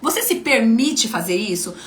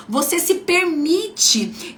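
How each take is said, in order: First: Said in the usual way. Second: "Você se permite" pitched higher and drawn out slowly; slow emphatic question. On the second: Shown as a demonstration. Coach pressing her audience to reflect, slow emphatic. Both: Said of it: "coach repeats her question".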